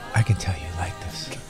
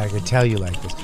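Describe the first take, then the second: First: It is said in a low, sultry voice. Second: It is said in a plain, ordinary voice.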